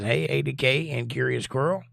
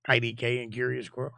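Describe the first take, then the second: First: Greeting read out with the letters A D K; misread name. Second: "I D K" spelled out with the first letter I; careful correction, "I D K" letter by letter starting with I; corrected name. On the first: Streamer reading a chat greeting, misreading the name as "A D K". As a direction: says "A D K" as A, D, K with the first letter A. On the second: Streamer fixing the misread chat name to "I D K". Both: Real, not acted. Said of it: "I can talk. I'm not having a stroke".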